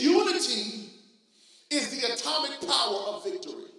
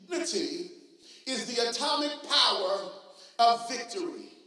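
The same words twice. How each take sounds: First: It is said at normal, quicker speed. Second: It is said slowly and deliberately.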